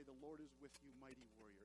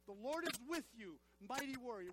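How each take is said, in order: First: Very low, soft and subdued; understated delivery. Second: Emphatic, full-voiced declaration; like you mean it. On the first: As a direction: drop the voice right down, almost throwaway. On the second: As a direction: declare it with conviction to rouse the congregation. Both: Shown as a demonstration. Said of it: "say it like you mean it".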